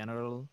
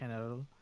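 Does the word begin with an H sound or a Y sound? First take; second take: Y sound; H sound. First: The word begins with a Y sound. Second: The word begins with an H sound. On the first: "a Y" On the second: "or sometimes an H"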